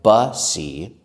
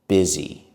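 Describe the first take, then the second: First: The first vowel sounds like 'uh'. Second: The first vowel sounds like 'ih'. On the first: The speaker calls it wrong. "It looks like bussy or boosie, but we don't say it that way" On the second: The speaker calls it right. "We say the letter U as I"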